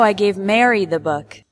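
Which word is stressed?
Mary. The word "Mary" carries the strongest stress. Mary, not another person, received it.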